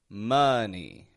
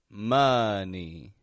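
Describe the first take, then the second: The two takes are said the same way.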